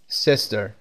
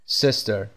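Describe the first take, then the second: Both takes have the same delivery.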